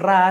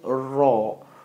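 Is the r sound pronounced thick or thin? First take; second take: thin; thick. First: The r sound is light and thin. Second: The r sound is heavy and thick. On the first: The speaker calls it wrong. "bukan Ra sebutannya" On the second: The speaker calls it right. "Sebutan tebal"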